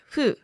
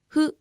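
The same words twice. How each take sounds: First: The first sound is a full f. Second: The first sound falls between h and f. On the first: The speaker calls it wrong. "or fu" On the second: The speaker calls it right. "but somewhat in between"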